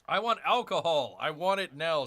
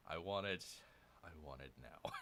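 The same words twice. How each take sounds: First: Mock demand. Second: Muttered repeat. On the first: Reads [name]'s chat. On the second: Retold or imitated. Repeats [name]'s line.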